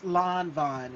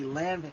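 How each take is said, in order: First: The name sounds like 'Lon Von'. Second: The name sounds like 'Lan-vin'. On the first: The speaker calls it right. "No, no, no, no, no, no, baby. It's it's Lon Von" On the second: The speaker calls it wrong. "and I would say Lanvin"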